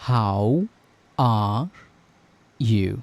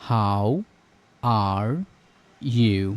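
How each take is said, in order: No difference in how they are said.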